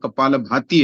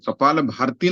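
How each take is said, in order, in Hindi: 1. दूसरे शब्द के अंदर र की ध्वनि नहीं है। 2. दूसरे शब्द के अंदर र की ध्वनि है। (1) "कपाल भाती है" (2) "कपाल भारती नहीं है"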